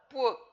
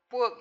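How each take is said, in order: First: The vowel is said with the jaw half open. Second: The vowel is said with the jaw half open.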